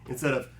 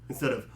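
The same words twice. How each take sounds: No difference in how they are said.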